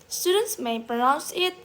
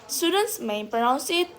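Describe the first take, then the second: No difference in how they are said.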